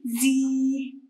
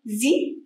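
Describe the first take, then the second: First: زي drawn out as "zeee"; long ya sound. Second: زي as a brief "zi"; short kasra sound. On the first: Teacher answering the exercise for pupils, long زي. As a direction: hold the vowel of زي long. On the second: Teacher answering the exercise for pupils, short زي. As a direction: keep the vowel of زي short. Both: Shown as a demonstration. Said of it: "بين الأصوات القصيرة والطويلة".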